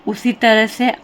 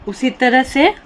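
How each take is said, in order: No difference in how they are said.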